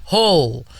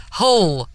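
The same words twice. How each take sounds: First: Hull flat and falling. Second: Hull with a rounded northern vowel; local Hull pronunciation. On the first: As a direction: repeat Hull back flatly. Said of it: "You can't put any kind of enthusiasm in it". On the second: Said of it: "How do you say it?". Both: Shown as a demonstration.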